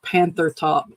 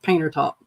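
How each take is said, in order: First: The first word is said with a 'th' sound. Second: The first word is said with a 't' sound. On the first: This is how the name is spelled. "it's spelled out Panther Top" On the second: This is how locals say the name. "everybody calls it Painter Top"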